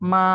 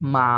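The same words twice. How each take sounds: First: It is said with the first tone, flat. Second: It is said with the third tone. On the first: "মা is a flat" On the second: "third tone"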